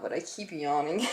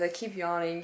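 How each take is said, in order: First: Talking through a yawn; stifle a yawn while speaking. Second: Said in the usual way. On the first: Real, not acted.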